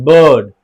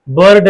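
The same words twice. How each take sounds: First: बर्ड said as bəd, no r; silent r demo. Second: बर्ड with the r sounded; wrong take with R. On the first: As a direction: drop the r in बर्ड. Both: Shown as a demonstration. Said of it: "बर्ड नहीं".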